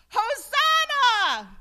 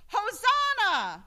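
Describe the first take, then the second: First: Very loud, high, slow and drawn-out shout; full shout. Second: High, loud call for the congregation to echo; leading shout. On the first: Preacher urging a louder church shout, full-throated shout. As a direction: let it ring through the church. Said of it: "let's try that again". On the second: Preacher leading the congregation's response, loud shout. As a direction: cry it out to lead the people. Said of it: "I'll say it first". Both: Shown as a demonstration.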